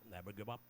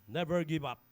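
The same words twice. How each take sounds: First: It is said in a put-on frog voice. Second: It is said in his normal voice.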